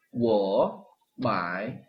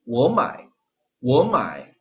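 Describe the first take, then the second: First: "워마이" very slow, each syllable dipped; awkward stiff "워마이"; unnatural full third tones. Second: Flowing "워마이"; natural "워마이"; smooth tone sandhi. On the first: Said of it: "이것도 그대로 하면". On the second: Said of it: "이렇게 부드럽게 됩니다". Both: Shown as a demonstration.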